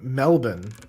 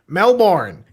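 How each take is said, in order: First: It is said with an Australian pronunciation. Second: It is said with an American pronunciation.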